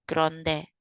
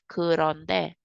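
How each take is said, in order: First: The word is said quickly, syllables run together. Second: The word is said slowly, syllable by syllable. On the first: The speaker calls it right. "parang mabilis" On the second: The speaker calls it wrong. "Instead of"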